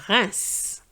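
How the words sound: It is said with a French pronunciation. The speaker calls it right. "but it's Reims"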